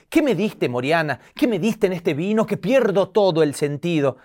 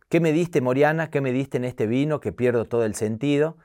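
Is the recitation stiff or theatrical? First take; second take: theatrical; stiff. First: It is recited theatrically, in the teacher's dramatic style. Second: It is recited stiffly and woodenly, without expression.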